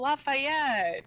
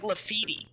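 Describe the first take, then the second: First: The name is said in full, like Lafayette. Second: The name is said short, like Lafitte. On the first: The speaker calls it right. "That's how you're supposed to pronounce that" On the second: The speaker calls it wrong. "They pronounced it like Lafitte. It was something atrocious"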